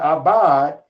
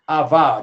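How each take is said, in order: First: The middle consonant is a B sound. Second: The middle consonant is a V sound. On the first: The speaker calls it right. "It says abad" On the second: The speaker calls it wrong. "It don't say avad"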